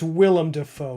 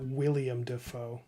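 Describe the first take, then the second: First: The first name is pronounced Willem. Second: The first name is pronounced William. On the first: The speaker calls it right. "It's Willem Dafoe" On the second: The speaker calls it wrong. "not William Dafoe"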